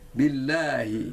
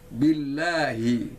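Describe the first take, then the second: The two takes are said the same way.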